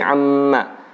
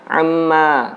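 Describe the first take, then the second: First: The word is kept short, not drawn out. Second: The word is drawn out long. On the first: The speaker calls it right. "tapi amma" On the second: The speaker calls it wrong. "bukan amma"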